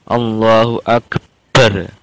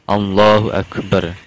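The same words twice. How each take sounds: First: The b in Akbar is doubled and held. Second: The b in Akbar is a single consonant. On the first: The speaker calls it wrong. "mentasdid huruf baknya lafal akbar" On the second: The speaker calls it right. "harus Allahnya dulu baru Akbar"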